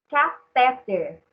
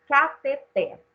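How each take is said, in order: First: The stress falls on the second syllable. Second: The stress falls on the final syllable. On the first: The speaker calls it wrong. "o que a gente fala muito errado ... teria que ter acento" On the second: The speaker calls it right. "o certo é cateter"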